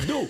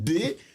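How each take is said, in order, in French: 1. Le nom se prononce en une seule syllabe. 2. Le nom se prononce en deux lettres séparées. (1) "c'est pas Do" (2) "c'est D. Oh"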